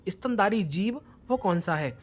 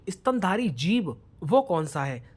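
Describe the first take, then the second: No difference in how they are said.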